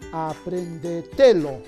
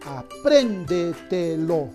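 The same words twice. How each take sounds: First: The stress falls on the syllable te. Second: The stress falls on the syllable pren. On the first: The speaker calls it wrong. "Quizás sea grave" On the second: The speaker calls it right. "La mayor fuerza de voz está en la sílaba pren"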